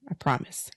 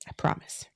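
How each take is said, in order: First: Quiet, breathy reassurance; soft promise. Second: Whispered promise, very soft. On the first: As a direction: gently promise the listener. First promise, voiceless. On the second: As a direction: breathe the words like a secret. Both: Real, not acted.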